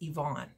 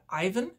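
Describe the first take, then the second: First: The name is said the Ukrainian way. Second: The name is said the common English way. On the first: "but in Ukrainian, it's Yvonne" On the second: "a lot of people would pronounce that Ivan"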